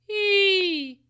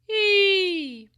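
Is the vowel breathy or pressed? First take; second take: pressed; pressed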